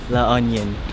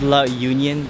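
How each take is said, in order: First: The second word sounds like 'onion'. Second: The second word sounds like 'union'. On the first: This is how locals say the name. "they say it differently" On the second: This is how the name is written. "it says La Union"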